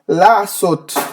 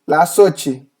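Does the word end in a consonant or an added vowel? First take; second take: consonant; added vowel. First: The word ends in a bare final consonant. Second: The word ends with an added vowel sound. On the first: "esse tz no final não existe no português" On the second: "Ele tem que fazer esse i"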